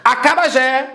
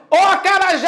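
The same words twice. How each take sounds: First: Said in the usual way. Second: High-pitched hail to a friend across the street; calling out. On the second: Shown as a demonstration. Teacher calling Acarajé across the street, calling out. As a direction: call "acarajé" high, leaning long on "jé". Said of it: "Você vai chamar".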